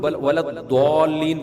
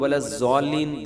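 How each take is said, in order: First: The consonant sounds like a plain d. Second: The consonant sounds like a z. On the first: "ये भी गलत है" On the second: "जे जैसा पढ़ते हैं ये भी गलत है"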